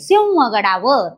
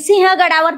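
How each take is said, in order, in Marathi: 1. h च्या आधीच्या अनुनासिकात व-सारखा गुण आहे. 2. h च्या आधीचा अनुनासिक साधा अनुनासिक आहे. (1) "अनुस्वाराचा उच्चार हा व युक्त होतो" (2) "चाललो नाही"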